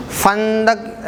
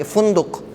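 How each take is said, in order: First: فندق said slowly as fandaq, short a after the f; drawn-out hesitant فندق with an a sound, fan-daq; فندق spoken carefully as fan-daq, a after f; first try, fandaq. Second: فندق said as funduq, u after the f and after the d; correcting to fun-duq, u on the first syllable; فندق pronounced fun-duq with u sounds. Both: Shown as a demonstration. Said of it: "صحیح تلفظ فا پہ پیش پڑیں گے".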